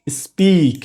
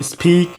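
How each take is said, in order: First: "স্পিক" with no puff on P, falling tune; unaspirated P after S. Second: "স্পিক" with a puff of air after the S; wrongly aspirated P. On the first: Teacher giving the corrected form, "স্পিক" with unaspirated P. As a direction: keep P in "স্পিক" tight, no breath. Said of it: "aspiration হবে না". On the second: Teacher showing beginners' common mistake, "স্পিক" with aspirated P. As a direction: overdo the breath on P in "স্পিক". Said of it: "this is totally wrong". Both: Shown as a demonstration.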